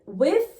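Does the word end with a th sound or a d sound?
th. It ends with a voiced th sound.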